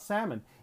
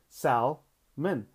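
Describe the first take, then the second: First: The word is said normally, L silent. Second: The word is read letter by letter, L sounded. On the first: The speaker calls it right. "not salmon" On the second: The speaker calls it wrong. "I saw S-A-L-M-O-N, salmon"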